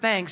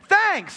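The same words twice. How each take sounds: First: It is said calmly at normal volume. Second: It is said loudly, like shouting.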